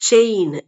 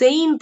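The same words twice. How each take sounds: First: The word begins with a ch sound. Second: The word begins with an s sound. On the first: The speaker calls it right. "ஆனா அது pronunciation வந்து செயின்" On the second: The speaker calls it wrong. "படிக்காதவங்க சொல்றாங்க"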